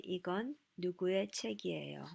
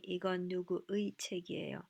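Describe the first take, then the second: First: 이건 누구의 책이에요 said quickly, 누구의 blended and reduced; casual native flow on 누구의, particle slurred; natural reduced. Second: 이건 누구의 책이에요 with every syllable and the full 의 sounded out; overly careful 누구의, particle fully pronounced; labored enunciation. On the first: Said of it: "So I just say". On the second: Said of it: "It's too labored". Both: Shown as a demonstration.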